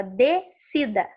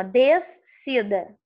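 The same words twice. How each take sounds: First: "descida" as de-cida, first S silent; correct pronunciation. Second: "descida" with the S sounded, des-cida; wrong pronunciation. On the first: Teacher correcting for students, "descida" without the extra S. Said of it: "Não, você fala descida". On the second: Teacher showing students how not to say it, "descida" with an extra S. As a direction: split "descida" as DES-CIDA, slowly, S audible. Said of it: "Você não fala assim". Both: Shown as a demonstration.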